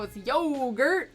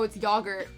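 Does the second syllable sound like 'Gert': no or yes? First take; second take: no; yes. First: The second syllable does not sound like Gert. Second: The second syllable sounds like the name Gert. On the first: The speaker calls it right. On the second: The speaker calls it wrong. "It sounds like he's like saying hello to a dude named Gert"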